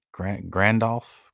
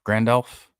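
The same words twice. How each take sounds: First: Grand, grand elf said slowly, leaning on grand; slow pun emphasis. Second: Grand elf with a rising, knowing lilt on elf; teasing rising pun. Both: Shown as a demonstration. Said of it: "Get it?".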